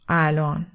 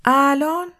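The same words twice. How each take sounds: First: Said in the usual way. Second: الان pitched high and louder, rising at the end; incredulous echo question. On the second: A narrator's reading. Lola repeating Simon's answer, الان as a rising, disbelieving question. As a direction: throw الان back as a startled question. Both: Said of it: "لولا تکرار کرد".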